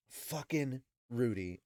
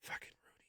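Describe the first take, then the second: First: Slow, drawn-out head-shaking complaint; slow exasperated repeat. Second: Breathless whisper, much softer; whispered aside. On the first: Host exasperated with Rudy, slow repeat. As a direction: say it aloud, shaking your head. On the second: Host reacting to Rudy's pervy thought, whispered. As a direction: hiss it under your breath. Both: Real, not acted.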